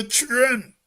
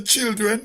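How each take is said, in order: First: Put-on "children" shrunk to "chren"; Trinidadian pronunciation. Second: Said in the usual way. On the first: Shown as a demonstration. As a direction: swallow the "il" and "d" in "children": one syllable, "chren". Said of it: "They say children". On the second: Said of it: "They can say children".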